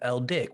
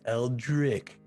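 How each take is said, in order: First: The name is said quickly without the R. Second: The name is said slowly with the R. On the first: "say it fast" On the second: "When you say it slow"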